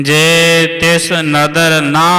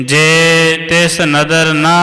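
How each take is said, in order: The two takes are said the same way.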